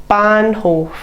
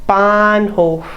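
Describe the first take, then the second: Both takes have the same delivery.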